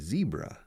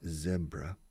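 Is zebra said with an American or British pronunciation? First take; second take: American; British. First: It is said with an American pronunciation. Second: It is said with a British pronunciation. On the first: "And the Americans and Canadians say zebra" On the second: "The British and Irish say zebra"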